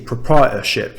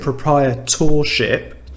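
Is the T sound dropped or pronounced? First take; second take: dropped; pronounced. First: The T sound is dropped. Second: The T sound is clearly pronounced. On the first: "he skipped the letter T" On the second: "So I say proprietorship"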